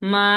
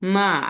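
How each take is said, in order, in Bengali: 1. স্বর শুরু থেকে শেষ পর্যন্ত একই থাকে। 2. স্বর প্রথমে নিচে নামে, তারপর উপরে ওঠে। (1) "ফ্ল্যাট ভাবে যাবে" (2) "নিচে নামতেছে আবার কি উপরে যাইতেছে"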